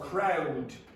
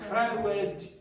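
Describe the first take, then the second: First: The word is said without an extra vowel. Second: The word is said with an extra vowel.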